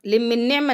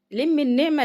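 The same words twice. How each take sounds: First: Said in the usual way. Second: لم pitched up high, with a rising tune; لم said high, like a firm reminder; stress on لم. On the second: Shown as a demonstration. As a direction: hit لم, then lift the end. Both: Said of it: "لم النعمة (repeated)".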